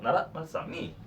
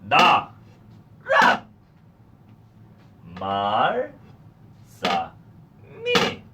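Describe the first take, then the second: First: The syllables are said quickly, run together. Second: The syllables are said slowly, one by one. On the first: "빨리 해볼게요" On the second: "먼저 해볼게요"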